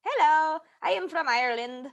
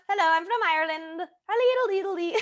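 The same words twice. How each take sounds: First: Halting, mock Irish accent; fake Irish accent. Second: High, silly mock Irish lilt; terrible Irish accent. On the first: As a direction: announce yourself in a half-hearted Irish accent. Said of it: "we're gonna start with Irish". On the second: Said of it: "That one was terrible".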